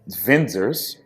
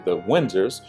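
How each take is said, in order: First: The name starts with a V sound. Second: The name starts with a W sound.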